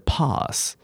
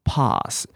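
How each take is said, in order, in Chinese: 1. 这个词是用英式口音说的。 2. 这个词是用英式口音说的。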